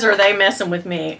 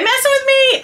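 First: Said in the usual way. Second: High, fast disbelieving repeat. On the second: Real, not acted. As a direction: jump way up in pitch, unable to believe it. Unboxing surprise gift.

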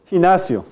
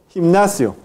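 First: Gimnasio with the M melted into the N, loud; a loud model of gimnasio with no M, only an N; assimilated nasal. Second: Gimnasio with M and N both sounded, loud; a loud model of gimnasio keeping the M before the N; unassimilated M-N. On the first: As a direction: say gimnasio firmly as "hin-nasio". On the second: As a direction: say gimnasio firmly as "him-nasio". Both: Shown as a demonstration. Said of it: "La asimilación es opcional".

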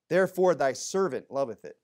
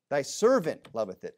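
First: Said in the usual way. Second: Servant leaned on, the key word; stress on servant. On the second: Shown as a demonstration. Preacher to congregation, stress on servant. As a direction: punch servant in Thy servant loveth it. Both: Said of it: "Emphasis on servant".

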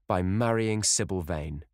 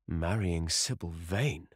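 First: Said in the usual way. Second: Slow, incredulous echo, stretched out; perplexed amazement. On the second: A narrator's reading. Lord Henry hears of Dorian's marriage plan, perplexed amazement. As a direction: draw the words out in amazed disbelief. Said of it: "cried Lord Henry, standing up and looking at him in perplexed amazement".

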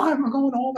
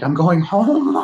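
First: A laugh breaks in, pitch jumps way up; bubbling over with joy, laughing the words out; excited laughing. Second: Excited. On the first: Retelling the moment of going home, giddy and laughing. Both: Retold or imitated. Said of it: "And I was so excited".

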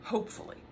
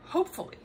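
First: Whispered aside. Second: Much higher, lightly sung-out hope; hopeful. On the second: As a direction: repeat it higher, wishing hard. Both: Real, not acted.

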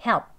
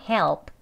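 First: Short "Help" with a weak L and barely any p; conversational pronunciation. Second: "Help" with an audible "ol" before the p; full dark L. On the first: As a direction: clip "Help" short, L almost swallowed. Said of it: "이제 대화 발음입니다". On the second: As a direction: sound out every part of "Help", dark L included. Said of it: "오 하는 소리까지요". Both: Shown as a demonstration.

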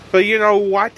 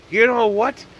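First: "know" lifted, rising at the end; defiant "you KNOW what?" going up; stress on know. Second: "You" punched higher, rising; pep-talk "YOU know what?"; stress on you. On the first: Self-pep rant begins. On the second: Repeating with new stress. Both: Real, not acted.

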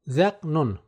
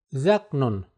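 No difference in how they are said.

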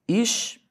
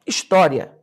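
First: "His-to-ria" in separate syllables with long pauses. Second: Said in the usual way. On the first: Shown as a demonstration. Teacher showing students the syllables of história, "His-to-ria" said piece by piece. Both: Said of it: "Olha só".

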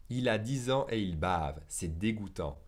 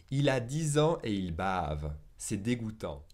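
Both takes have the same delivery.

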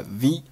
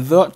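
First: "the" said with a long ee, "thee"; strong "the". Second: Said in the usual way. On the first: Shown as a demonstration. Teacher showing learners Trump's emphasis, "the" as "thee". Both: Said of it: "冠词the读成了the".

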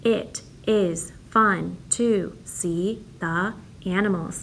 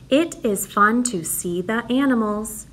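First: Very slow, word by word; slow counting read. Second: Said in the usual way. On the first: Shown as a demonstration. Teacher reads slowly so the class counts the words. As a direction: stretch it so each word can be counted. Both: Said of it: "Here's my next sentence".

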